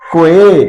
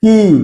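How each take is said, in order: First: The word sounds like kway. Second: The word sounds like key. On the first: The speaker calls it wrong. "No, এর উচ্চারণ কোয়ে না" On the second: The speaker calls it right. "এর আসল উচ্চারণ হলো কি"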